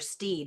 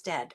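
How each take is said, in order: First: The vowel is a long 'ee' sound. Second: The vowel is a short 'e' sound. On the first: The speaker calls it wrong. "I want to call her Steed" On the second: The speaker calls it right. "it's Stead"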